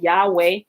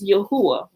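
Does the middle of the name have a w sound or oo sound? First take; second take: w sound; oo sound. First: The middle of the name has a w sound. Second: The middle of the name has an oo sound. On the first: The speaker calls it wrong. "people pronounce it Yahweh" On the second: The speaker calls it right. "but it's Yahuwah"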